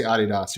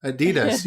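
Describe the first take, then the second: First: Adidas as AD-ee-das; British pronunciation. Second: Adidas as uh-DEE-das; American pronunciation. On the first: Retold or imitated. American doubts the British way, echoing it with first-syllable stress. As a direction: echo Adidas with stress up front on AD. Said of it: "You don't say Adidas". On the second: Shown as a demonstration. American answers how he says the brand, stressing DEE.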